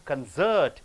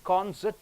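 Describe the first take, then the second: First: The stress is on the last syllable. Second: The stress is on the first syllable. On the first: It is used as a verb. "last syllable if you stress" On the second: It is used as a noun. "first syllable if you stress"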